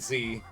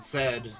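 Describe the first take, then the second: First: The letter is pronounced as zee. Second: The letter is pronounced as zed. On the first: This is the pronunciation the speaker expected as a kid. "not Z" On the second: This is the British pronunciation of the letter. "they pronounce it Zed"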